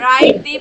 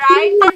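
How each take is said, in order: First: The word 'the' is said as 'thee'. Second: The word 'the' is said as 'thuh'. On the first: "রাইট দি বলবো না দা বলবো?" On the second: "yes"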